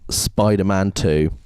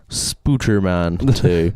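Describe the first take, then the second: First: The first syllable has an 'eye' vowel. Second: The first syllable has an 'oo' vowel. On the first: The speaker calls it wrong. "I believe you haven't said it right" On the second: The speaker calls it right. "Thank you"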